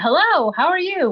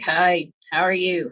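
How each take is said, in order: First: It is said loudly with high energy. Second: It is said flatly with low energy.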